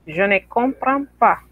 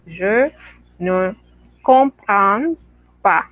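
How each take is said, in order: First: Said in the usual way. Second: "Je ne comprends pas" with a pause after each word. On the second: Shown as a demonstration. Teacher modelling for students, each word separated. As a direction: space every word out for the class. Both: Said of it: "usted dice".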